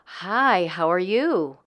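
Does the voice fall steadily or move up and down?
up and down. The pitch moves up and down, longer phrase.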